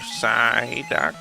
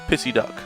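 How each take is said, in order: First: The word begins with a 'sigh' sound. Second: The word begins with a 'piss' sound. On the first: The speaker calls it right. "And then I learned Psyduck" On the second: The speaker calls it wrong. "I always used to call"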